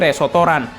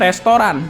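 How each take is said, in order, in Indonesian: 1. Ada tambahan vokal di antara konsonan. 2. Diucapkan dengan jelas, tanpa tambahan vokal.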